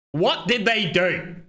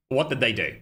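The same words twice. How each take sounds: First: "What did they do?" slow, high and raised; "What did they do?" stretched out as a loud, rhetorical challenge; emphatic repeat. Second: Said in the usual way. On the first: Real, not acted. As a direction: drive home "What did they do?", drawn out.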